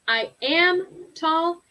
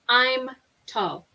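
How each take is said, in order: First: I am is said as two full words. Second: I am is shortened to one syllable.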